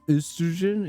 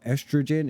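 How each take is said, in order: First: It is said with a UK pronunciation. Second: It is said with a non-UK pronunciation.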